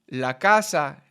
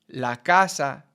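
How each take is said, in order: No difference in how they are said.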